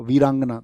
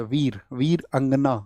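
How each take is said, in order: First: Said in the usual way. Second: वीर अंगना said slowly as two separate words; split into parts. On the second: Shown as a demonstration. Teacher showing students the word's two parts, वीर अंगना said separately. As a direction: break वीरांगना apart slowly into वीर and अंगना. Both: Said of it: "दोनों से मिलके बनता है".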